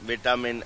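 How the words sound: It is said with a British pronunciation. "इंग्लिश"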